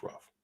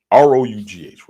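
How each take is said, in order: First: Said in the usual way. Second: Each letter of "R O U G H" punched out loud and separate; spelled out for emphasis. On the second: Shown as a demonstration.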